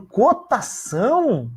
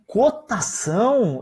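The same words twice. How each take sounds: First: Slower "Cotação?", higher than the first take; an even more incredulous "Cotação?"; stunned inner echo. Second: Slow, drawn-out disbelieving question; a slow stunned "Cotação?"; incredulous echo. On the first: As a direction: mull the word over in disbelief. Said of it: "Eu fiquei pensando". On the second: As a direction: repeat the word back in disbelief. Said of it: "Eu falei". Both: Retold or imitated.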